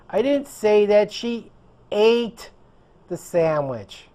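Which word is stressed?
ate. The stress falls on the word ate. She did something else with it. "She did something else with the sandwich"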